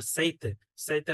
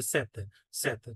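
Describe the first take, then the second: First: সেইতে with a gliding double vowel; Spanish diphthong. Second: সেতে with one simple E vowel; Portuguese single E. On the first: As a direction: say সেইতে as sei-te. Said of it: "স্প্যানিশে বলে". (সেইতে, প্রথমে যুগ্ম স্বরধ্বনি) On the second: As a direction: say সেতে as se-te, no glide. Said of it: "পর্তুগিজে". (সেতে, একটাই এ স্বরধ্বনি) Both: Shown as a demonstration.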